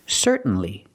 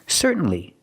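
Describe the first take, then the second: Both takes have the same delivery.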